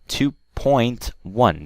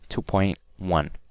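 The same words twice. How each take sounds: First: It is said at normal speed with the T. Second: It is said quickly with the T dropped. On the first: "that is if I'm speaking normally" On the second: "if I'm speaking quickly, I'll say two point one. I won't pronounce the T"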